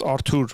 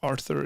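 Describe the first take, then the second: First: Artur said the Armenian way, hard T, no th; Armenian pronunciation. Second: Arthur with the English th sound; plain English Arthur, th as in think; English pronunciation. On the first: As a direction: say Artur with a plain t sound, Armenian style. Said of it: "in Armenian it's pronounced". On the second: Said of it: "Artur is the Armenian version of Arthur". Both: Shown as a demonstration.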